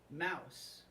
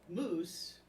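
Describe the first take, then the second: First: The vowel rhymes with house. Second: The vowel rhymes with goose. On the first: This is how the obnoxious neighbor says it. "she calls it the chocolate mouse" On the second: This is the usual way to say the dessert's name. "she pronounces the word moose"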